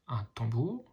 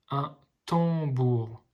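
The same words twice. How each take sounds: First: Said in the usual way. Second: Slow, split into syllables; slowly sounding out tam-bour. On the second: Shown as a demonstration. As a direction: sound out each syllable for a child. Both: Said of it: "les petits ponts vous aident à lire".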